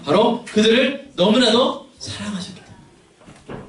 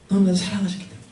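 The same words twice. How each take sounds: First: 너무나도 drawn out slowly and high; slow, stressed emphasis. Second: 너무나도 repeated gently and softer; soft tender echo. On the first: Preacher stressing 너무나도 to the congregation, slow and high. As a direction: lean hard on 너무나도, slowly and higher. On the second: Preacher softly echoing 너무나도 to the congregation, tender. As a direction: breathe the words out tenderly. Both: Real, not acted.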